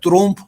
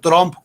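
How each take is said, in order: First: It does not sound like the start of trompeta. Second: It sounds like trompeta without the final eta. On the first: The speaker calls it wrong. "No se pronuncia Trump" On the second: The speaker calls it right. "se pronuncia Trump como trompeta, pero sin el eta"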